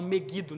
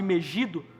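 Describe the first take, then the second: First: The name is said in an English-influenced way. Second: The name is said in a Portuguese way.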